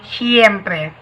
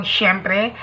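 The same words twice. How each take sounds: First: "siempre" with a clear s, see-em-pre; Spanish pronunciation. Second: "siyempre" starting with a sh sound; Tagalog pronunciation. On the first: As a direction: say "siempre" the Spanish way, s and ie kept apart. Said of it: "In Espanyol". (bigkas Espanyol ng "siempre") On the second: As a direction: say "siyempre" the Tagalog way, shem-pre. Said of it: "In Tagalog". (bigkas Tagalog ng "siyempre") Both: Shown as a demonstration.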